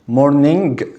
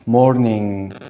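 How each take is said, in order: First: The word ends with an audible hard g. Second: The word ends with a long ringing ng. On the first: The speaker calls it wrong. "ما نقولش morning غلط" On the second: The speaker calls it right. "انا اطلع صوت الان morning"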